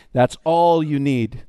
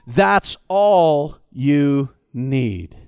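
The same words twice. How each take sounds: First: Said in the usual way. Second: Very slow, low, stress on all; slow emphatic. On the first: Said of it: "repeat as preacher". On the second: Shown as a demonstration. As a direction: lower and very slow. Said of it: "first take, pilot's line".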